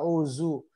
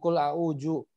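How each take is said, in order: First: The middle consonant is a z sound. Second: The middle consonant is a j sound. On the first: "Apalagi nyasar ke huruf za" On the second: "Apalagi nyasar ke huruf jim"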